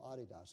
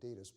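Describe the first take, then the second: First: It begins like the nickname 'Adi', then 'das'. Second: It is said the common English way. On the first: The speaker calls it right. "It's called Adidas" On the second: The speaker calls it wrong. "You probably call it Adidas, but that's mispronounced"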